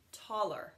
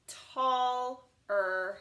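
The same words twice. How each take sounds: First: Said in the usual way. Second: Tall-er drawn out in two parts, slow; tall-er, slow with a break; sounded out slowly. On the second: Shown as a demonstration. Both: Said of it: "Same with this one".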